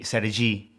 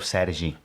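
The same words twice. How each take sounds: First: The stress is on the last syllable. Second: The stress is on the first syllable. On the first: "If I had an accent like the tick on top by the end of my name" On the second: "instead of"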